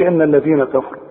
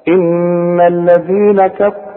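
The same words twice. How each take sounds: First: The n is short, with no nasal hum. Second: The n is held with a nasal hum. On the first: The speaker calls it wrong. "فما تقولش" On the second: The speaker calls it right. "كل نون في القرآن لازم تغن مدام عليها الشدة"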